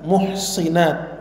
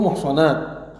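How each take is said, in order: First: The vowel after the s is i. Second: The vowel after the s is a. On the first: Women who guard their own chastity. "Wabil kasr bisa dibaca" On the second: Women whom God has protected from adultery. "bi fathis sad"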